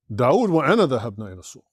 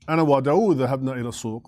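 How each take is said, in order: First: داود put first with a lift; stress on داود. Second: Said in the usual way. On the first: Shown as a demonstration. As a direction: lean on داود, then run through the rest. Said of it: "I'm placing the emphasis on the person". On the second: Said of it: "it's just a normal statement".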